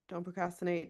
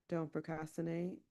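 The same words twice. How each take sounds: First: It is spoken quickly. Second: It is spoken slowly. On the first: "I couldn't keep up with all the words" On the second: "to say it again and to slow down"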